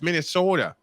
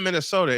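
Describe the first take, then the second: First: It is said in a heavy Midwestern accent. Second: It is said without a heavy Midwestern accent. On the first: The speaker calls it right. "it's Minnesota. ... heavy, whatever you call that, Midwestern accent" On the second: The speaker calls it wrong. "You're not saying Minnesota"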